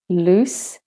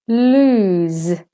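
First: "loose" short, ending in hissed s; teacher's clear "loose" with final s; voiceless S ending. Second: "lose" long, ending in buzzing z; teacher's drawn-out "lose" with final z; voiced Z ending. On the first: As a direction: end "loose" on an unvoiced s. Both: Shown as a demonstration. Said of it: "when the S says S or the S says Z".

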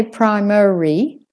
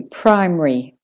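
First: "primary" as "pry-muh-ree", rising at the end; three-syllable variant. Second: "Primary" squeezed to "prime-ree", falling; two-syllable variant. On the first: Teacher shows what some people say, three-syllable "primary". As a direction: give "primary" a full middle syllable. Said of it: "Some people say primary". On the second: Teacher offers the other option, two-syllable "Primary". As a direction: drop the middle vowel of "Primary". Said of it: "it's up to you". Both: Shown as a demonstration.

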